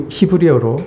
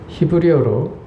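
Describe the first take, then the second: The two takes are said the same way.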